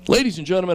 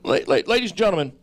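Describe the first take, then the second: First: It is said in his ordinary speaking voice. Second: It is said in an imitated, put-on voice.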